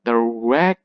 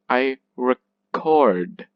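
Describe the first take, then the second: First: Records with long REC, then short weak kurds; stress on first syllable. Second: Record with weak re and long, falling CORD; stress on second syllable. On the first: Teacher flipping to the noun, stress on REC in records. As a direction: lean on REC in records, pause, drop kurds. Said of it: "go to the opposite". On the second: Teacher showing the verb, stress on CORD in record. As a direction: slowly land on CORD in record. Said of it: "we stress the chord syllable". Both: Shown as a demonstration.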